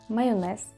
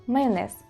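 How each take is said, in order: The two takes are said the same way.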